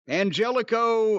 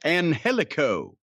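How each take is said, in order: First: The name is said in a normal pronunciation. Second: The name is said in a mocking, imitated pronunciation.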